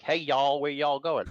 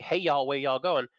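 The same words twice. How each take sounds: First: A light Southern drawl on y'all; lightly mock the Southern accent. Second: Slower, more hammed-up Southern accent; mock Southern accent. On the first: Lightly mocking a Southern accent to show US accents. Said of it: "Then we have the southern accent". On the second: Mocking how people hear a Southern accent, slow Southern accent. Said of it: "People think".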